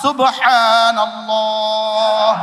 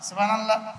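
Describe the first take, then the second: First: The word is articulated fully and carefully. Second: The word is articulated loosely and carelessly. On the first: The speaker calls it right. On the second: The speaker calls it wrong.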